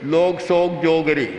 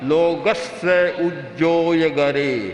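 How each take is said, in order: First: The syllables are slurred and loosely run together. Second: Each syllable is pronounced fully and distinctly. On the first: This is how people used to recite it long ago. The speaker calls it wrong. "बस ये उच्चारण था बंधा हुआ" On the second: This is how even a small child recites it today. The speaker calls it right. "शुद्ध उच्चारण करेगा"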